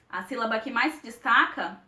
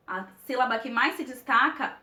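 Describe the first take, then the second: No difference in how they are said.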